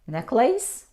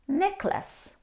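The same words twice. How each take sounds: First: The ending sounds like the word lace. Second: The ending does not sound like lace. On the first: The speaker calls it wrong. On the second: The speaker calls it right. "we pronounce necklace"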